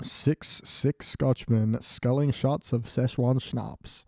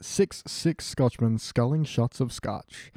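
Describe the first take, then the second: First: Very slow, deliberate tongue twister; careful tongue twister. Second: Slow, careful tongue twister. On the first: Retrying the tongue twister, very slow and deliberate. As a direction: sound out every word slowly. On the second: Trying a tongue twister for friends, slow and careful. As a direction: pick through each word slowly. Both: Shown as a demonstration. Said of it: "Now say it with a German accent".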